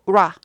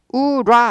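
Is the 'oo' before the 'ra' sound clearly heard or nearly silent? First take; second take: nearly silent; heard. First: The 'oo' before 'ra' is only a lip shape. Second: A full 'oo' vowel is heard before 'ra'. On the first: The speaker calls it right. "십분의 일 박자라는 거는 입 모양만 우 하라는 거예요" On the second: The speaker calls it wrong. "우라 아니고"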